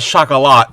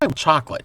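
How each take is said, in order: First: The word is given a fancy, foreign-sounding pronunciation. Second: The word is given its ordinary everyday pronunciation. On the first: "you're pronouncing it in a fancy way" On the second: "And not chocolate"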